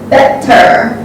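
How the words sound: It is said in a British accent. "English people pronounce better"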